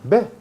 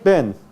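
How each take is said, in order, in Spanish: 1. Termina en una vocal, sin n. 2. Termina en una n hecha con la punta de la lengua. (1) "O simplemente elimina" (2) "ven para acá"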